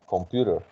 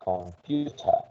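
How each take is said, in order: First: It is said in an American accent. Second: It is said in a British accent.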